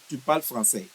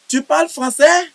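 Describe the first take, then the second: First: The voice falls at the end. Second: The voice rises at the end.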